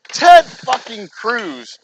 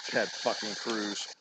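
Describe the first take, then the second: First: Loud, very slow, each word punched; disgusted outburst. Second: Much softer, low, slow muttered name; disgusted mutter. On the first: Ranting about a senator to viewers, loud slow disgusted outburst. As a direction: spit out the name in disgust. Angry at politician. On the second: Repeating the senator's name to viewers, soft disgusted mutter. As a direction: grumble the name under your breath. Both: Real, not acted.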